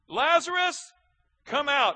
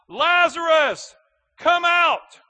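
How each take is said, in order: First: It is said at a normal volume. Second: It is said in a louder voice.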